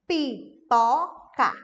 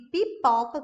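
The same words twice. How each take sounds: First: "Pipoca" in three slow, loud, separate beats, pi, po, ca; syllable by syllable. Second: Said in the usual way. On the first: Shown as a demonstration. Therapist showing teachers how to segment, "Pipoca" in separated syllables. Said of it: "com as sílabas separadas". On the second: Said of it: "vou dar um exemplo de duas palavras".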